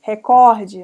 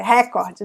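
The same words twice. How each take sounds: First: Recorde with COR loud, falling after; stress on COR. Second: Recorde copied from English, beat on RÉ; stress on RE. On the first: Teacher correcting the English-based mistake, recorde stressed on COR. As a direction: say recorde as re-CÓR-de. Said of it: "não, é recorde". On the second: Teacher showing the loanword mistake, recorde stressed on RE. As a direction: say recorde as RÉ-cor-de. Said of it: "e acha que é recorde". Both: Shown as a demonstration.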